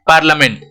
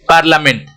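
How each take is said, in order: Both takes have the same delivery.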